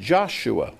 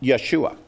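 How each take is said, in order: First: The name begins with a J sound. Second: The name begins with a Y sound. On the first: This is the modern English form. "That's American modern English" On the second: This is the Old English form. "In Old English, this is pronounced Yeshua"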